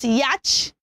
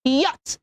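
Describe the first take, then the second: First: Yacht as "yat", short a; flat "a" as in cat in yacht; wrong pronunciation. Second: Yacht as "yot"; an "o" sound in yacht, silent ch; correct pronunciation. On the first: Teacher showing the mistake, mispronounced yacht. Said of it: "not yacht". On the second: Teacher modelling the word, careful yacht. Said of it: "is pronounced". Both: Shown as a demonstration.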